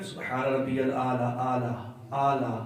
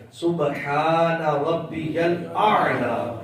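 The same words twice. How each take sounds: First: "سبحان ربی الاعلیٰ" run together, ain dropped to plain aa; offhand "سبحان ربی الاعلیٰ" without the throat sound; mispronunciation demo. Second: Slow "سبحان ربی الاعلیٰ" with a strong ain; deliberate model "سبحان ربی الاعلیٰ", every sound drawn out; correct recitation demo. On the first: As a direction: say "اعلیٰ" as a loose aa-laa. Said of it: "اعلیٰ نہیں". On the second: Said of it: "اس الف کو اس آئین کے ساتھ ملانا ہے". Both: Shown as a demonstration.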